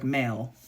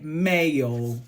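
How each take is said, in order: First: Said in the usual way. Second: "Mayo" drawn out in an Essex accent, pitched down. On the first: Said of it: "like male". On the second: Shown as a demonstration. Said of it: "how Essex people would have said it".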